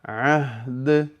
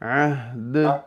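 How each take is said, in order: Both takes have the same delivery.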